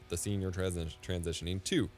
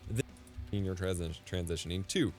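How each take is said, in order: Both takes have the same delivery.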